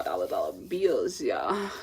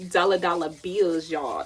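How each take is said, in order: First: Catchphrase dropped very low; playful low voice. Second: Chanted, punchy, louder catchphrase at usual pitch; playful catchphrase chant. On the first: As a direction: drop way down for a mock-cool repeat. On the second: Quotes catchphrase, then repeats it lower. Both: Pretend.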